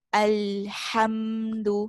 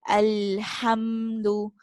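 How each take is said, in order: No difference in how they are said.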